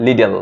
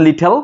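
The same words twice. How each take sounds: First: 'লিডল' with a d in place of t; American d sound. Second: 'লিটল' with a crisp t in the middle; British t sound. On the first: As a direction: say 'লিডল' as LI-del. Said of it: "American বলে". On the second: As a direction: say 'লিটল' as LI-tel. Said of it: "ব্রিটিশরা সেটা ঠ বলে". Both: Shown as a demonstration.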